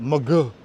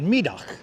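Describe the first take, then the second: First: It is said with a local New York pronunciation. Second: It is said with a Dutch pronunciation. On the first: "But us Brooklynites call it Mugu" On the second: "I'm pronouncing that correctly, right?"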